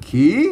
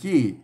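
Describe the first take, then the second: First: The syllable is said with a rising tone. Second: The syllable is said with a falling tone. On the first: "มันขีเสียงจัตวานะ" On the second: "มันขี้มันเสียงโทปกตินะ"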